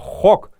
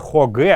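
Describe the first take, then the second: First: The word is one closed syllable. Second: The word ends with an extra vowel syllable. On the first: The speaker calls it right. "а именно хок. Это односложные слова" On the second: The speaker calls it wrong. "Не хоге"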